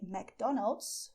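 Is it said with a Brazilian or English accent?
English. It is said the plain English way.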